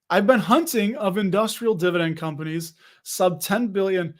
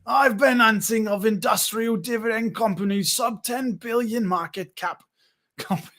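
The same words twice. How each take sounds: First: Said in the usual way. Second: Put-on a jokey mash of accents, vaguely New York; goofy put-on voice reading a chat comment; Dan's imagined voice. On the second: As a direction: ham up a viewer as a Seinfeld-type guy. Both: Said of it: "This is what Dan sounds like in my mind".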